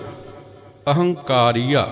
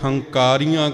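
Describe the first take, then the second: First: The word starts with an initial a vowel. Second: The word starts directly with the h sound. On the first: The speaker calls it right. "सतगुरां ने इत्थे अगेतर ऐड़ा लगाया है" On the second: The speaker calls it wrong. "ऐड़ा छड्ड दिंदे आ"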